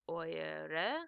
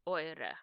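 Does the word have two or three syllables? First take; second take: three; two. First: The word is said with three syllables. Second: The word is said with two syllables. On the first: The speaker calls it wrong. "You wouldn't say oyere because that's a lot of e's" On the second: The speaker calls it right. "So you would say"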